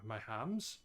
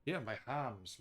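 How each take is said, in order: First: HAMS rising as a question; doubtful rise on "hams". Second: HAMS falling, settled; confirming. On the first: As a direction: lift "hams" at the end, unsure. Unsure of own word, asks. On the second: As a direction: let "hams" drop as a statement. Confirms own word after asking. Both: Real, not acted.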